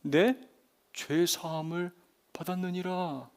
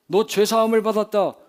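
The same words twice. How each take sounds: First: Slow, soft solemn pronouncement; grave scriptural declaration; Jesus pronouncing. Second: Loud, higher mocking declaration; scoffing imitation of a pronouncement; dismissive mimicry. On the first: Acted. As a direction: declare it gently and deliberately. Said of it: "예수님의 입에서 나온 그 음성은". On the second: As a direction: toss it off loudly as if anyone could say it. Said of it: "그렇게 말하는 게 뭐가 어렵다고".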